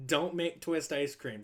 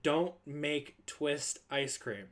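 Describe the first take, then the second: First: Said in the usual way. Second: Slow, weighty warning with each word spaced out; slow stern order. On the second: Retold or imitated. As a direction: lay down the rule slowly. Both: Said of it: "Just don't do it".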